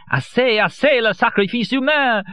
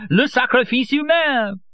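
First: Ecstatic, much higher cry; carried away in rapture; transported. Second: Slower ecstatic repeat, much higher; transported, drawn out. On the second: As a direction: stretch "humain" in rapture. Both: A narrator's reading.

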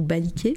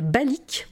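First: Baliké with final é sounded; Baliké, three syllables. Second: Balik ending on the k; Balik, two syllables. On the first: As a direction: add an é to end Baliké. (Baliké prononcé avec é final) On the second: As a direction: say Balik with no final é. (Balik prononcé sans é final) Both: Shown as a demonstration. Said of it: "je sais pas comment on prononce".

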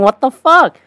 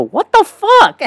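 First: Higher-pitched mock disbelief; milder replay of a shocked squeal; comic incredulity after a laugh; unspoken disbelief. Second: Very high-pitched mock squeal; high, comic incredulous cry; shocked outburst. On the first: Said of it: "Without saying". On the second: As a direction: squeak it in exaggerated disbelief. Acting out own shocked reaction.

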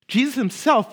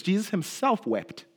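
First: "himself" pushed higher and louder; "Jesus himself" raised and emphatic; stress on himself. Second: Said in the usual way. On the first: Shown as a demonstration. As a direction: lean hard on "himself".

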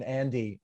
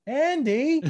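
First: Said in the usual way. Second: High-pitched, drawn-out Andy; mock high call; mimicked call of Andy. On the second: Mimics a character calling Andy.

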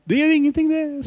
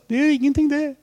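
First: Put-on high, smiling old-king voice repeated; King Olav. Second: Put-on high, smiling old-king voice; King Olav. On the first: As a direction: keep the king's kindly, amused voice going. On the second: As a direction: put on the king's kindly, amused voice. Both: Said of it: "avbrøt kongen med et smil og sa". (etterligner kong Olav, lys og smilende)

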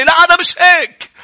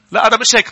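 First: High, loud put-on voice; high mocking whine; mock excuse. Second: Said in the usual way. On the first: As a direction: play the self-justifying excuse.

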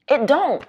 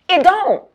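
First: Said in the usual way. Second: Emphatic high punch. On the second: Real, not acted. Emphatic repeat.

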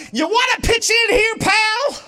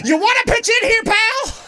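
First: High, loud angry shout at him. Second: High, loud yell like her dad; dad's shout. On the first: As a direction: bark it like a fed-up dad. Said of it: "I just shout". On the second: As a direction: boom it out like an exasperated father. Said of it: "that's what my dad used to say". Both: Retold or imitated.

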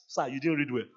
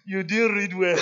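First: Said in the usual way. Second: Mock crying whine. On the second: Student whines to the pastor that he marked badly, mock crying. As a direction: whine it like a sulking student near tears. Student complaining after failed exam.

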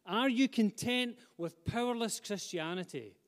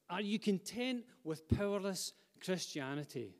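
First: Higher and louder, pressing "you"; urgent direct challenge to the congregation; pointed real question. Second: Said in the usual way. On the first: Shown as a demonstration. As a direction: demand an answer from each listener. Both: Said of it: "Let's not make it a rhetorical question".

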